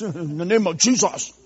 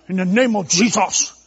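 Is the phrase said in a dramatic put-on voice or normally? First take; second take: normal; dramatic. First: It is said in an ordinary, everyday speaking voice. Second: It is said in a dramatic, solemn put-on voice. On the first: The speaker talks plainly, as in everyday speech. The speaker calls it right. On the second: The speaker sounds overly formal and solemn. The speaker calls it wrong.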